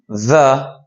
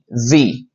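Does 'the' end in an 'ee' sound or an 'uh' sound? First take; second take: uh; ee. First: The word ends in a short uh sound. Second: The word ends in a long ee sound. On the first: The next word starts with a consonant. "that is the symbol for this pronunciation, when the is before a consonant" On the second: The next word starts with a vowel. "The other pronunciation, E, the, before a vowel"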